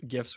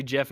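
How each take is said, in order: First: Gifs with G as in "gift"; hard G. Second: Gif said like "jiff"; soft G. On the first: Shown as a demonstration. Naming the format's creator, gifs said with hard G. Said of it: "it's actually gif". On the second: Retold or imitated. Creator correcting everyone, gif said as "jiff". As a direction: say gif with a J sound. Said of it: "the creator of gifs was like".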